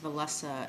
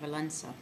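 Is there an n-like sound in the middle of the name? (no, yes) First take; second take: no; yes. First: It is said as spelled, without a nasal sound. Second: It is said with an n-like nasal sound inside. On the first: The speaker calls it wrong. "you don't pronounce that as Walesa" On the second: The speaker calls it right. "it sounds more like an N in there"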